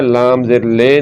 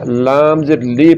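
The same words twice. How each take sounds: First: लाम ज़ेर ले ending on lay; majhool ay. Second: लाम ज़ेर ली with a pure ee; maroof ee. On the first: Teacher spelling the wrong vowel, ay sound. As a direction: open the final vowel to ले, lay. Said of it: "नहीं पढ़ना". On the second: Teacher spelling the correct vowel, clear ee. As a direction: finish on a clear ली, lee. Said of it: "पढ़ना है". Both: Shown as a demonstration.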